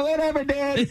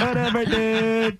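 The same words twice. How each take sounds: First: Stoner voice. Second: High, slow lazy stoner drawl. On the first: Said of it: "other guys are like". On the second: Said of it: "The stoner on". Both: Retold or imitated.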